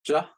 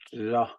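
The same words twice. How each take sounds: First: The vowel is said on a high pitch. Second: The vowel is said on a low pitch.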